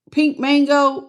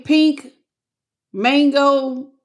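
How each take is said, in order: First: Said in the usual way. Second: "Pink" and "Mango?" said as two separate words with a pause between, puzzled rise; sounding out a name. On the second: Real, not acted. Streamer sounds out a viewer's joined-up username, pausing between words. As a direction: read "Pink", pause, then ask "Mango?". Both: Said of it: "I'm trying to get it, but it's all together".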